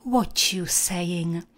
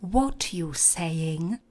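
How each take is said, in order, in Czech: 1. T a y splynou do měkkého zvuku podobného ch. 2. T a y se říkají jako oddělené zvuky.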